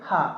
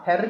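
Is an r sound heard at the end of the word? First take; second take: no; yes. First: The word ends in an open vowel without r. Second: The word ends with a clear r sound. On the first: The speaker calls it right. "హా ఎలా చదవాలండి, హా" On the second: The speaker calls it wrong. "హెర్ కాదు"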